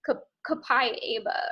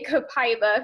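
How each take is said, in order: First: The word has its standard, fuller pronunciation. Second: The word has a simplified, easier pronunciation. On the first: The speaker calls it right. "is how it's actually pronounced" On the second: The speaker calls it wrong. "my team and I say copaiba because it's so difficult to pronounce"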